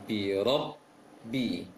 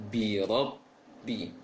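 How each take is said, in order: The two takes are said the same way.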